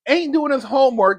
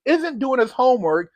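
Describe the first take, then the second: First: Casual "ain't doing his homework" in street grammar; relaxed "ain't" before the self-correction; slangy ain't. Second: "isn't" put in place of "ain't" with a mock-proper fix; dry self-correction saying "isn't"; self-corrected grammar. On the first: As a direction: throw out "ain't" loosely, then catch yourself. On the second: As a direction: correct yourself, a touch prim, on "isn't". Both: Shown as a demonstration. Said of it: "excuse me".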